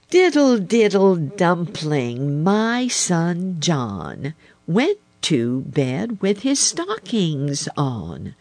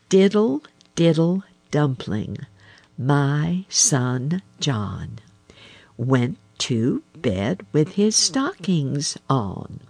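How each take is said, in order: First: The rhyme is said at a normal pace. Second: The rhyme is said slowly.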